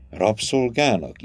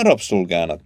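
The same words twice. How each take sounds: First: "Rabszolgának" slowly, as if trying it out; tasting the word. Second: Said in the usual way. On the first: A narrator's reading. Girl puzzles over Jana's word, slowly tasting "Rabszolgának". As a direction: draw out "Rabszolgának" as an unfamiliar word. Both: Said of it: "ízelgett a szótalány".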